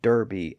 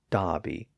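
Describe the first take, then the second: First: The first vowel sounds like 'er' with an R. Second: The first vowel sounds like 'ah' without an R. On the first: "Americans call Derby" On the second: "Dobby and Bockley without the R sound"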